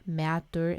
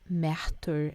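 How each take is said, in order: First: The middle consonant sounds like a soft d. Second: The middle consonant is an aspirated t. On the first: "with a D sound" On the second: "with an aspirated sound of T"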